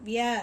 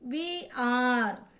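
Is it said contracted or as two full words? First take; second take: contracted; full. First: The words are merged into one syllable. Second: Two separate full words are said.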